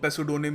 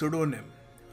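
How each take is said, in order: First: The initial P sound is pronounced. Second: The initial P sound is left silent. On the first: The speaker calls it wrong. "हम इसको पेसुडोनिम या जो भी नहीं कहेंगे" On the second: The speaker calls it right. "पी silent है, इसको हम कहेंगे सुडोनिम"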